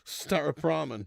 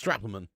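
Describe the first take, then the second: First: The name is said at a normal pace. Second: The name is said very quickly and squashed.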